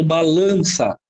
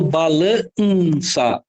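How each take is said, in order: First: Balança with A and N as one nasal vowel; nasalised A. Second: Balança as ba-la-nnn-ça, the N held on its own; separated N. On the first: Teacher giving the usual option, balança with nasal A. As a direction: blend the N into the A of balança. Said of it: "esse N aqui, ele tá nasalizando". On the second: Teacher testing for a digraph, N separated in balança. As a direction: pull the N apart from the A in balança. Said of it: "Eu falo balança ou". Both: Shown as a demonstration.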